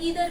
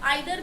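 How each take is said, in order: First: The first vowel sounds like 'ee'. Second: The first vowel sounds like 'eye'. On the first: "ईदर भी बोल सकते हैं" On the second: "आप आइदर भी बोल सकते हैं"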